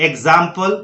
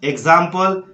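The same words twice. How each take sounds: The two takes are said the same way.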